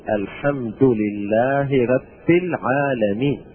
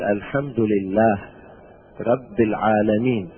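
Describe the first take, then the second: First: The word endings carry their full vowels. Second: The word endings are cut off without vowels. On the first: The speaker calls it right. "لابد أن نقول" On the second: The speaker calls it wrong. "يعني بالتسكين"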